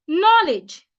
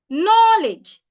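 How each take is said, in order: Both takes have the same delivery.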